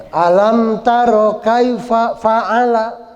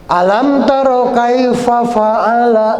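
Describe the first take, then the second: The two takes are said the same way.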